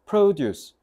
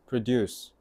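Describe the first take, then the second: First: The stress is on the first syllable. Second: The stress is on the second syllable. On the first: It is the noun meaning farm goods. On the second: It is the verb meaning to make.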